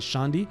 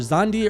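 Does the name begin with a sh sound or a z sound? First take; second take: sh sound; z sound. First: The name begins with a sh sound. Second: The name begins with a z sound. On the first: "I think you pronounce the X sh" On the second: "it's either Zandi or Shandi"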